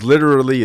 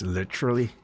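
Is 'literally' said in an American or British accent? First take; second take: American; British. First: It is said in an ordinary American accent. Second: It is said in a British accent.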